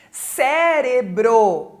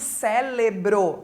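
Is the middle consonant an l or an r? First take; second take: r; l. First: The middle consonant is an r sound. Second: The middle consonant is an l sound. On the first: The speaker calls it right. "É com R" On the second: The speaker calls it wrong. "Não é com L"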